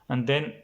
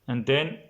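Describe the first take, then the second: No difference in how they are said.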